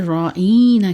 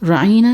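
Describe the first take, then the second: First: The middle vowel is drawn out with a y-sound. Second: The middle vowel is said short and plain. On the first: An insult meaning shepherd or fool. "खींच के कहते थे" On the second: A polite request to be heard. "राइना नहीं कहते थे"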